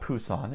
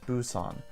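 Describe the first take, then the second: First: The word begins with a strong P sound. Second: The word begins with a softer B-like sound. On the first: The speaker calls it wrong. "It's not Pusan" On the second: The speaker calls it right. "it's Busan"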